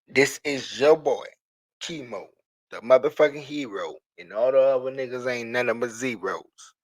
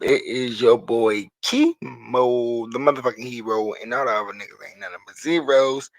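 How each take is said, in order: First: It is said slowly. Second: It is said fast.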